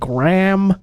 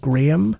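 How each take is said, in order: First: The name is said in an American accent. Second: The name is said in a British accent. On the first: "the American way of saying Graham" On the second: "the more British way of saying Graham"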